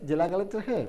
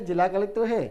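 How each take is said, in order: The two takes are said the same way.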